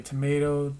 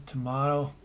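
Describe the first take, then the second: First: "Tomato" with the middle vowel of "may"; stressed MAY in the middle of "Tomato"; long-a pronunciation. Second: "tomato" with the open middle vowel of "father"; stressed MAH in the middle of "tomato"; broad-a pronunciation. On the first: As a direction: say "Tomato" as tuh-MAY-toh. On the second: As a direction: say "tomato" as tuh-MAH-toh. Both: Shown as a demonstration. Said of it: "say it either way".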